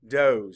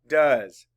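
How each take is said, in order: First: The vowel is a long oh sound. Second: The vowel is a short uh sound. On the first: It refers to female deer. "There actually is another pronunciation. It's doze" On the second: It is the verb form. "D, uh, z, does"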